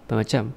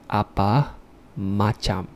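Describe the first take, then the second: First: It is said fast, with the syllables slurred together. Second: Every syllable is said clearly and fully. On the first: It is the informal way to say it. "the informal pronunciation way would be bermacam" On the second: It is the formal way to say it. "this is the formal pronunciation way"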